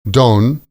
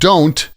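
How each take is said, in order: First: The final t sound is dropped. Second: The final t sound is pronounced.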